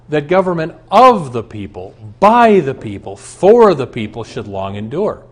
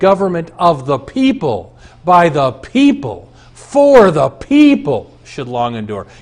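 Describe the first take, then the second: First: The stress falls on of, by and for. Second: The stress falls on each word people.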